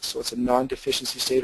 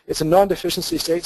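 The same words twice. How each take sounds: First: Said in the usual way. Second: First mention, non-deficiency gently emphasized; stress on non-deficiency. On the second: Shown as a demonstration. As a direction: lean on non-deficiency to introduce the term.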